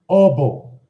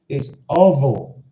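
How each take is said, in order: First: The middle consonant is a B sound. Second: The middle consonant is a V sound. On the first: This is a regional dialect form. The speaker calls it wrong. "Elisa says, Obo" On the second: This is the standard form. The speaker calls it right. "no, it's ovo"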